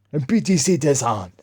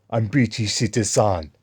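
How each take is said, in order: First: Higher, mock-indignant African accent; hammed-up angry declaration; imitated angry insistence. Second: Lightly put-on African accent; African-accented mock declaration; imitated African accent. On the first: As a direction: mimic him angrily insisting in a put-on accent. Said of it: "this African guy started getting angry". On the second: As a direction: mimic the man's African accent, matter-of-fact.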